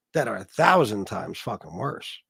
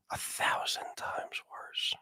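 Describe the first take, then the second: First: Said in the usual way. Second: Slow, breathy voiceless whisper; menacing whisper. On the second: Acted. Streamer whispering the threat again to his viewers, slow menacing whisper. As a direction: hiss it slowly like a secret threat.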